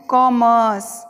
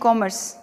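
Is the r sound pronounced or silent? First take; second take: silent; pronounced. First: The r sound is left silent. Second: The r sound is pronounced. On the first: The speaker calls it right. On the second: The speaker calls it wrong.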